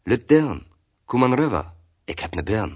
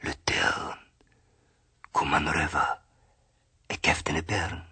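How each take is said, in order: First: Put-on higher, louder call to a girl; friendly beckoning call, voice lifted; old man calling out. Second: Soft, breathed whisper; hushed tree voice in dialect. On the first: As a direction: call her over in dialect, lightly acted. Old man calls girl over. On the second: A narrator's reading. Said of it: "so flüstert der Baum".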